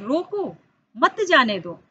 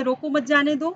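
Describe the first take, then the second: First: "रोको", a break, then "मत जाने दो" as one; pause after रोको. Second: "रोको मत जाने दो" in one run; no pause marked. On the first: Teacher contrasts the new meaning for pupils, pause after रोको. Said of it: "उसको हम कह रहे हैं". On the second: Teacher recalls the earlier unpunctuated reading, no pause marked. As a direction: say रोको मत जाने दो without stopping. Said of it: "जिसको अभी हम कह रहे थे". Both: Shown as a demonstration.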